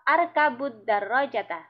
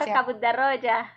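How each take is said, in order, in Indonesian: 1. Kata terakhir berakhir dengan vokal a pendek. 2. Kata terakhir berakhir dengan konsonan, tanpa vokal. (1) "ketika dia jadi objek nanti berubah harokatnya menjadi fathah" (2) "disukun aja. Cari aman"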